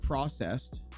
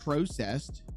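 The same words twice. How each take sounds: First: The word has an American-style pronunciation. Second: The word has a British-style pronunciation.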